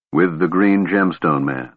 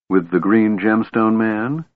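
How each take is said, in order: First: "With the Green Gemstone Man" level, settling as a statement; confirming statement. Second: "With the Green Gemstone Man" slow, rising into a question. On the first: Tanis answering Kitiara, "With the Green Gemstone Man" as a plain confirmation. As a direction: repeat "With the Green Gemstone Man" without any questioning rise. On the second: Kitiara asking Tanis about her brothers, "With the Green Gemstone Man" as a question. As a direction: ask "With the Green Gemstone Man", pitch climbing to the end. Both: A narrator's reading.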